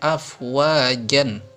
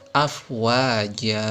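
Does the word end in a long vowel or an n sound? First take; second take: n sound; long vowel. First: The word ends with an n sound. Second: The word ends with a long open vowel. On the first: The speaker calls it wrong. "jangan dibaca afwajan" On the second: The speaker calls it right. "Yang betul adalah afwaja"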